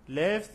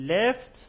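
First: Said in the usual way. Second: Left called out higher and louder, rising; word stressed for learners. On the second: Shown as a demonstration. Teacher introducing the British word Left, loud and emphatic. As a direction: punch out Left like a headword. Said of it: "equal British English".

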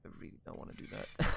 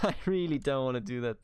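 First: Fast, whispered under the breath; reluctant whisper. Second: Said in the usual way. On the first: Real, not acted. To the game, whispering fast reluctance. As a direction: whisper it like you're dreading the job. Reluctant aside before laughing.

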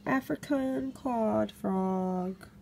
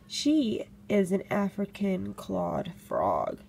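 First: Taking care over African clawed frog after a stumble; slow careful repeat. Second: Careful slow naming. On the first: For the camera, carefully saying the frog's name slowly. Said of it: "Let me get that out". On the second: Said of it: "Try to say that ten times fast". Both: Shown as a demonstration.

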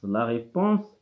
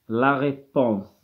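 First: Said in the usual way. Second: La réponse said very slowly, syllable by syllable; deliberately stretched La réponse; slow dictation. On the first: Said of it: "normal repeat after slow take". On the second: Shown as a demonstration. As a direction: draw out La réponse for pupils. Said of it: "slow dictation, then normal repeat".

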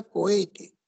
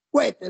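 First: "cohete" as co-E-te, o and e kept apart; careful correct pronunciation. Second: "cohete" run together as KWE-te; common colloquial pronunciation. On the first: Teacher telling students to pronounce it well, "cohete" carefully as co-e-te. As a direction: say "cohete" in three syllables, ko-E-te. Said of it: "hay que pronunciar bien la palabra". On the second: Teacher showing how people normally say it, "cohete" slurred to kwe-te. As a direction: say "cohete" in two syllables, kwe-te. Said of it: "Normalmente solemos decir". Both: Shown as a demonstration.

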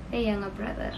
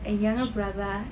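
The two takes are said the same way.

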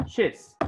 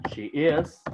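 First: "she's" as one short syllable; forma abreviada. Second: Said in the usual way. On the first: Shown as a demonstration. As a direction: merge she and is into "she's". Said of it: "habla en forma abreviada". ("she's" contraído en una sílaba) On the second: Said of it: "habla en forma normal".

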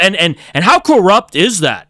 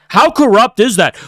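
First: Said in the usual way. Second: Fed-up, pressing the point home. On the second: Real, not acted. Repeats the question, louder second time.

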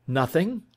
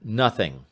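First: NOTHING rising sharply to a high end; questioning echo. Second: Said in the usual way. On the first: Acted. Detective echoes answer in disbelief.

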